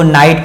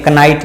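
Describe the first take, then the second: First: नाइट begins on n, no k; silent-k pronunciation. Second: कनाइट with k sounded before n; wrong pronunciation. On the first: Teacher gives knight its proper reading, silent-k pronunciation. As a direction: drop the k in नाइट. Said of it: "इसको नाइट पढ़ते हैं". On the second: Teacher warns against this reading of knight, wrong pronunciation. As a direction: voice a false k opening कनाइट. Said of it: "नहीं पढ़ते हैं". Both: Shown as a demonstration.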